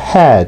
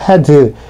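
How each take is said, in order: First: The final D is barely audible. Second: The final D is released like an extra syllable. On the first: The speaker calls it right. "D 발음이 들리락말락하게" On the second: The speaker calls it wrong. "이렇게 이음절로 발음하지 마시고"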